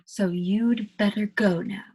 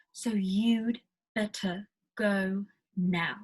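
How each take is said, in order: First: Slow British "you'd better go now"; British pronunciation. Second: Very slow, separated "better", "go", "now"; word-by-word British pronunciation. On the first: Teacher putting all the things taught together, British pronunciation. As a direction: model "better" and "go" slowly in a British accent. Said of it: "that's all the things I've been teaching you". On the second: Teacher breaking down what she's been teaching, word-by-word British pronunciation. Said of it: "better with the T". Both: Shown as a demonstration.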